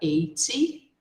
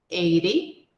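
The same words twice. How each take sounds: First: The t is pronounced as a clear, crisp t. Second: The t is softened to a quick r-like tap. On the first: "No inglês britânico, eles pronunciam o T com o som de T mesmo" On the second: "a gente pode trocar o som do T pelo som do R ... E isso é no inglês americano"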